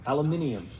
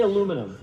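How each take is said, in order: First: "aluminium" as "al-yoo-MIN-ee-um", British way; British-style "aluminium", ending in "-ee-um"; British pronunciation. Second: Said in the usual way. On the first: Shown as a demonstration. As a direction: attempt a British "aluminium" with the extra syllable. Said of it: "now I can't say it the British way". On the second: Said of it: "Now say it like the British".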